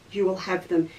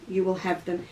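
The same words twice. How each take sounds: The two takes are said the same way.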